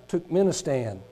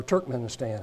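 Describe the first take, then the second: First: Turkmenistan stumbled as "Tuk-menistan"; tentative pronunciation. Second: Turkmenistan said "TURK-men-istan"; second pronunciation attempt. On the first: Preacher stumbling through a list, Turkmenistan said "Tuk-menistan". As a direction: say Turkmenistan without the first r. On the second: Preacher correcting himself on a country, Turkmenistan as "TURK-men-istan". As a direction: say Turkmenistan with a clear "Turk" opening. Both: Shown as a demonstration. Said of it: "however that one's pronounced".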